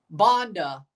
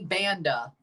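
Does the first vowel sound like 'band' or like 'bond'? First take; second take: bond; band. First: The first vowel sounds like in 'bond'. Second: The first vowel sounds like in 'band'. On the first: The speaker calls it right. "He changed the pronunciation of his last name" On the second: The speaker calls it wrong. "I thought it was Anthony Banda. I didn't realize I was pronouncing it wrong"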